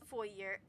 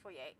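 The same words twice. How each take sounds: First: The word is said in an English-style way. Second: The word is said in a French-style way. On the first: The speaker calls it wrong. "a lot of people that I know like pronounce it like as foyer" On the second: The speaker calls it right. "I pronounce it as foyer"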